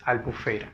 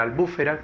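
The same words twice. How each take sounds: First: Albufera stressed next to last, on FE; correct stress on FE. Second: Albúfera stressed third from last, on BÚ; wrong stress on BÚ. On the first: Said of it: "La palabra correcta es". (albufera con la fuerza de voz en FE) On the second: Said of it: "la confunden con la palabra". (albúfera con la fuerza de voz en BÚ) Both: Shown as a demonstration.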